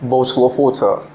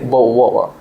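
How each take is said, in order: First: The t sounds are clearly pronounced. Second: The t sounds are dropped. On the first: "is actually United Kingdom's accent" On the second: "in London accent they will say"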